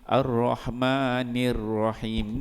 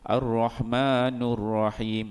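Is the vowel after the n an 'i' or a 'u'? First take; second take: i; u. First: The vowel after n is i, lips spread. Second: The vowel after n is u, lips rounded. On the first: The speaker calls it right. "Sepatutnya Ar-Rahmanir Rahim. Ni dia kena tarik mulut" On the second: The speaker calls it wrong. "bila dia baca dengan nu, dia akan memuncungkan"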